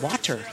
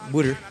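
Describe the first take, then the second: First: The t in the middle is crisp. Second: The t in the middle is softened. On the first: "some people out west who will really say it with a T" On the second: "I do Philly style. I say water"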